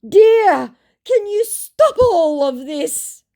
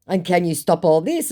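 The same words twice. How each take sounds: First: Much higher, slow, whiny put-on voice; mock pleading scammer. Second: Said in the usual way. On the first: Caught scammer begging her to stop, hammed-up whine. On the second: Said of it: "I said".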